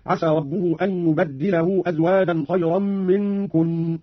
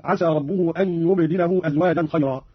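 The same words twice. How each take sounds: First: يبدله said "yubaddilahu"; slow chant, leaning on a doubled d in يبدله; doubled dal. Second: Said in the usual way. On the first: Shown as a demonstration. Teacher demonstrating Qalun, يبدله with doubled d. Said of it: "بتشديد الدال". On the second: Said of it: "قرأ قانون بتشديد الدال".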